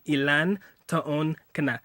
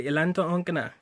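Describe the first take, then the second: First: Ilan taon ka na spaced out slowly; slow model phrase. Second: Said in the usual way. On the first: Shown as a demonstration. Teaching how to ask her age, slow Ilan taon ka na.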